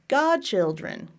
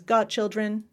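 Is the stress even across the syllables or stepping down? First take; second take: stepping down; even. First: The stress steps down from first to last syllable. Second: The stress is equal on all three syllables. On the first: "I would do regular primary stress on God, and then I would do secondary stress on chill, take a step down" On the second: "It's almost like she's stressing each of the three syllables"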